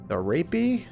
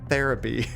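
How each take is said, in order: First: It is split as 'the' plus 'rapey'. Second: It is said as the single word therapy. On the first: The speaker calls it wrong. "I think I said the Rappy? The Rapey?" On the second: The speaker calls it right. "oh, therapy"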